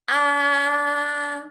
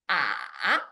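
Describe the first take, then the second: First: The pitch stays high and level throughout. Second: The pitch dips low, then rises again. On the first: "it starts high and maintain high throughout the whole process" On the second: "It starts middle low and dips down low and then up to middle high"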